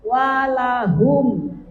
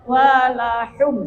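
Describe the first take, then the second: First: "Walahum" with a breathy throat h, slow; correct ha. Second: "Walahum" with a light h; wrong ha. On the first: Teacher showing the student the right h. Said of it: "Ha ditukar dengan ha". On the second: Teacher imitating the student's wrong h. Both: Shown as a demonstration.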